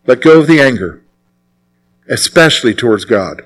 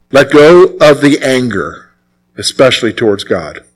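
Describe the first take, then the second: No difference in how they are said.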